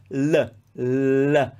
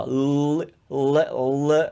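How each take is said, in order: First: "L" with the tongue tip just behind the teeth; frontal L. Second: "l" made low in the throat; North American L. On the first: Teacher showing English speakers the Italian sound, frontal "L". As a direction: say "L" up front, placed like a D. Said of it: "L is a very frontal sound". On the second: Teacher showing how English differs from Italian, throaty "l". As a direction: hold a dark, choked "l" from far back. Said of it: "often comes from much lower". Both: Shown as a demonstration.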